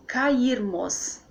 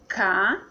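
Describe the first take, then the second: First: Said in the usual way. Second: "cairmos" as ca-ir-mos, slowly; syllable by syllable. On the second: Shown as a demonstration. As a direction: pause between ca, ir and mos in cairmos. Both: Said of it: "Fica assim a separação".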